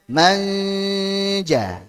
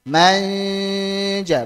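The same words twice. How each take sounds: The two takes are said the same way.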